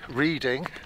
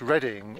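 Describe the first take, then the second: First: The first vowel sounds like 'reed'. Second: The first vowel sounds like 'red'. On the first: The speaker calls it wrong. "It's not Reading" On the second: The speaker calls it right. "think about how you pronounce"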